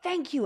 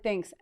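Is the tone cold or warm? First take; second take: warm; cold. First: It is said warmly and brightly. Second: It is said flatly and coldly.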